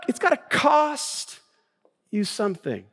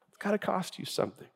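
First: "cost" high and stretched, then a pause; emphatic stress. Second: Much softer, quicker, understated; hushed repeat. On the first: Pastor driving his point home, emphatic stress on "cost". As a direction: hit "cost" hard and hold it, then drop for "you something". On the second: Pastor letting his point sink in, hushed repeat. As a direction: drop the volume right down on "It's gotta cost you something". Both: Real, not acted.

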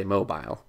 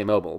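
First: "mobile" said as MOH-bile, rhyming with "file"; "mobile" with a full, long "bile" ending. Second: "mobile" said as MOH-bul, with a swallowed second syllable; "mobile" clipped to MOH-bl, as in a phone; short mobile. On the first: Explaining to a co-host the word for something movable: "mobile" as MOH-bile. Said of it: "I say mobile". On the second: Explaining to a co-host what she calls her phone: "mobile" as MOH-bul. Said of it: "I call it, I say mobile". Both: Shown as a demonstration.

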